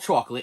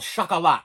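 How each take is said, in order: First: It is said like the everyday word chocolate. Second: It is said as chocolat, unlike the everyday word. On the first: The speaker calls it wrong. "It's not called chocolate" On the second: The speaker calls it right. "It's called chocolat"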